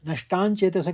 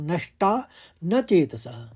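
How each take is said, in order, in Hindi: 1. 'nashta' और 'na' एक ही शब्द की तरह जुड़कर बोले जाते हैं। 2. 'nashta' और 'na' अलग-अलग शब्दों की तरह बोले जाते हैं। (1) "नष्टान चेतसः कहने में गलत हो जाएगा" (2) "पहले उसको तोड़ लीजिए"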